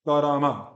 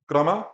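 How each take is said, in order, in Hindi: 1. हर व्यंजन के बाद एक पूरा स्वर आता है। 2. पहले व्यंजन के बाद कोई स्वर नहीं है। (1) "और ये कारामा" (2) "यहाँ पे क आधा है"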